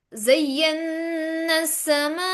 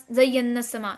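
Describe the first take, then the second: First: ज़य्यन्ना समा chanted slowly, न hummed long; drawn-out ज़य्यन्ना समा on a level recitation tone; nasal ghunna. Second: ज़य्यन्ना समा said short, न not held; spoken ज़य्यन्ना समा with every sound kept brief; no ghunna. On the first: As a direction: hold the न in the nose, then stretch the आ of समा. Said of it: "नाक के अंदर आवाज लेकर जाएंगे". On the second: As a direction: rush through ज़य्यन्ना समा without nasal hum or long vowel. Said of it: "ऐसे नहीं पढ़ोगे". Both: Shown as a demonstration.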